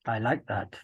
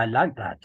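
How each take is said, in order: First: Whisper. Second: Said in the usual way. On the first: Real, not acted. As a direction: breathe it as a whisper. Repeats praise, then whispers it.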